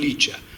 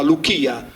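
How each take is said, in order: First: The first vowel is 'ee', then a soft ch. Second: The first vowel is 'oo', then a hard k. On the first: It is the modern reading of the name. The speaker calls it wrong. "non Licia" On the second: It is the ancient reading of the name. The speaker calls it right. "quindi diventa Luchia"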